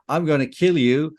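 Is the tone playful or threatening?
playful. It is said in a light, joking tone. It is only a joke. "then you'll laugh at me"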